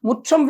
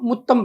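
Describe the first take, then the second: First: The middle consonant sounds like 'ch'. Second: The middle consonant sounds like 't'. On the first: It means a courtyard or home. The speaker calls it right. "ముచ్చం అంటే లోగిలి అని" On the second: It means a kiss. The speaker calls it wrong. "'ముత్తం పుగుందు' అంటే చుంబనానికి వచ్చి అని"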